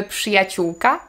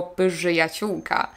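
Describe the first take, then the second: First: Przyjaciółka with rz as voiceless sz; przyjaciółka, smooth pszy cluster; correct pronunciation. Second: Pyżyjaciółka with an extra vowel and voiced ży; pyżyjaciółka, rz broken into a voiced syllable; wrong voiced rz. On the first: Teacher gives learners the right przyjaciółka. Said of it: "Mówimy przyjaciółka". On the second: Teacher mocks the learner's pyżyjaciółka. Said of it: "nie mówimy". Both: Shown as a demonstration.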